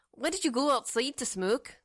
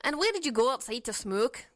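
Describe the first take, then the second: First: Light Scottish lilt on every word; a hint of a Scottish brogue; Scottish accent. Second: Mild Canadian twang; lightly voiced Canadian speaker; Canadian accent. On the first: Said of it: "that's like Scottish". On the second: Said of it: "That's not a Canadian". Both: Shown as a demonstration.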